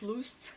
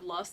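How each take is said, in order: First: The word is pronounced in a distorted way. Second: The word is pronounced in the normal way. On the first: The speaker calls it wrong. "on purpose I would mess up like the pronunciation" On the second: The speaker calls it right. "instead of"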